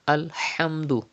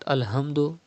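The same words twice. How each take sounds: First: The h comes from deep in the throat. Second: The h is a light, ordinary h sound. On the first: The speaker calls it right. "but it is Alhamdu" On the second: The speaker calls it wrong. "It's not Alhamdu"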